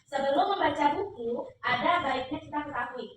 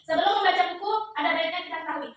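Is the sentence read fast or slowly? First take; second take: slowly; fast. First: The sentence is read slowly. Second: The sentence is read quickly. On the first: The speaker calls it right. "Nanti ketika pelan" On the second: The speaker calls it wrong. "Cepatkan nadanya"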